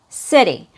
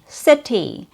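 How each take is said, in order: First: The middle consonant is a quick, light d. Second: The middle consonant is a crisp, true t. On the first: The speaker calls it right. "the word city has a fast D sound" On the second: The speaker calls it wrong. "It's not a true T sound. So it's not city"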